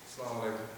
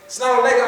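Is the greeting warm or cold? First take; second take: cold; warm. First: It is said coldly and flatly. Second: It is said warmly and cheerfully.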